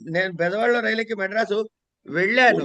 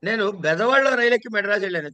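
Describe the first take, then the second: First: The final word, 'vellanu', is stressed. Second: The word 'Bezawadalo' is stressed. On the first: The trip went through without any trouble. "ఎటువంటి ఇబ్బందులు లేకుండా" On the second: The train was boarded in this town, not another. "బెదవాడ stress"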